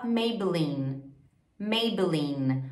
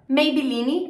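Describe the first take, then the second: First: "Maybelline" as "MAY-buh-leen"; careful English "Maybelline" ending on N; English pronunciation. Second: "Maybelline" as "mei-bi-LI-ni"; Portuguese-style "Maybelline"; Brazilian pronunciation. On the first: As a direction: silent E in "Maybelline". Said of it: "em inglês a gente fala". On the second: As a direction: add final I to "Maybelline". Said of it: "outro exemplo". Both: Shown as a demonstration.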